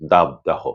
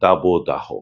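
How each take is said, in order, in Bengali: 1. প্রথম অংশটি একটি নিছক ব্যঞ্জনে শেষ হয়। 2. প্রথম অংশটি ও-স্বরে শেষ হয়। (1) "এ দুটিই কিন্তু সম্পূর্ণ ভুল উচ্চারণ।" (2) "করতে হবে"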